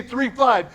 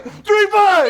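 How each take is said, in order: First: Said in the usual way. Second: Shout. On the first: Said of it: "So when I say". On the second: Real, not acted. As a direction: rally call shouted high and loud. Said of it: "you yell".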